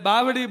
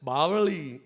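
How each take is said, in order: First: The middle consonant is a d sound. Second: The middle consonant is a retroflex l sound. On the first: The speaker calls it wrong. "બાવડી બોલે" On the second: The speaker calls it right. "મારું ગામ બાવળી છે"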